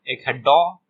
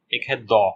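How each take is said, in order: First: 'डॉ' with the tongue curled back; hard retroflex d in 'डॉ'; retroflex D sound. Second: 'दो' with the tongue on the teeth; dental D sound. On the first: ('डॉ' में मूर्धन्य ड बोलें) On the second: ('दो' में दंत्य द बोलें) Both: Shown as a demonstration. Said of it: "डी का है दो साउंड".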